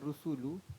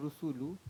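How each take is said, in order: First: The vowels are pronounced as a clear 'oo' sound. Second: The vowels are pronounced as a clear 'oo' sound.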